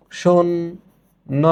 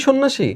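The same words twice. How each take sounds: First: সন্ন্যাসী very slowly as shon... na... shi; সন্ন্যাসী sounded out with pauses, no j sound; syllable by syllable. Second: Said in the usual way. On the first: Shown as a demonstration. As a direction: break সন্ন্যাসী into three drawn-out syllables. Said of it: "আমরা এটার উচ্চারণ করছি". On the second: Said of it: "এই তো করছি".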